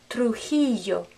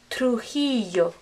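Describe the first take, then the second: Both takes have the same delivery.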